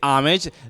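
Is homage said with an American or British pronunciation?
American. It is said with an American pronunciation. "the American way to say it is"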